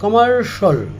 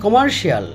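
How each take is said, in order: First: The ending is said as 'shul'. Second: The ending is said as 'shee-ul'. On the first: The speaker calls it right. "এটা হবে কমার্শাল" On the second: The speaker calls it wrong. "আমরা বলে থাকি"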